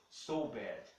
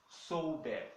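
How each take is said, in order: No difference in how they are said.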